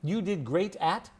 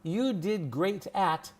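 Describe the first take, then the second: First: The words are reduced and linked with little movement. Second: The words are carefully articulated with exaggerated mouth movement. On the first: The speaker calls it right. "We don't move our mouths that much" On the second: The speaker calls it wrong. "My mouth is moving too much"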